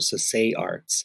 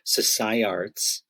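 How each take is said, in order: First: The name's second part sounds like the word 'say'. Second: The name's second part does not sound like 'say'. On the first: "Sasay, like as in to say something" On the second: "I was saying Sasai Arts"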